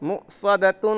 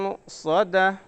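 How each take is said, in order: First: The word ends with a full 'tun' sound. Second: The word ends softly with an 'ah' sound. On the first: The reading carries on into the next verse. "तानुन पेश तुन" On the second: The reader stops at this word. "अगर वहां पर हमें रुकना है तो कैसे पढ़ेंगे"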